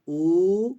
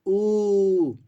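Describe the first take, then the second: First: उ held long and loud. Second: उ stretched extra long, higher and louder; prolonged pluta u. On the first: Teacher demonstrates a two-measure उ to the class, loudly. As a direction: sustain the उ, louder. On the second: Teacher shows students the three-measure उ, calling it out long. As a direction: draw उ out as far as a call. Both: Shown as a demonstration. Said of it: "अब जैसे उ".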